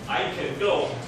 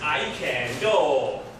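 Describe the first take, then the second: First: The word can is reduced and quick. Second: The word can keeps a full vowel. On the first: "if you say it naturally"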